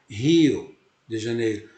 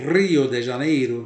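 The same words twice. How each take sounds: First: Rio starts with a breathy h sound. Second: Rio starts with a sound that is not breathy. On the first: "O H aspirado é como se eu fosse falar... eu falo Rio de Janeiro" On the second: "em vez de falar Rio"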